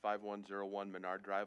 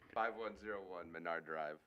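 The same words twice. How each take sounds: First: The address is read at a quick pace. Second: The address is read at a slow pace. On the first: The speaker calls it wrong. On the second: The speaker calls it right.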